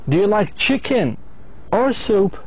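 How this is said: The voice rises on chicken, falls on soup. It asks the listener to choose one item. "لاحظوا chicken أعلى كانت"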